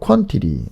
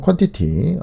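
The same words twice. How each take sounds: First: It is said with an American accent. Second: It is said with a British accent. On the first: "미국 발음으로" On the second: "영국 발음으로"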